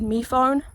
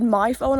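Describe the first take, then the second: First: "me phone" with me said as mee instead of my; pirate-style me phone. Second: Said in the usual way. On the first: Shown as a demonstration. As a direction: say "me phone" like a pirate, me rhyming with see. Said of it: "I would have said me phone". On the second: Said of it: "I would not have said my phone".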